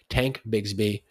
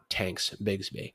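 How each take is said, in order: First: The first name ends without an s sound. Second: The first name ends with an s sound. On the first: The speaker calls it right. "it's Tank Bigsby" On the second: The speaker calls it wrong. "not Tanks Bigsby"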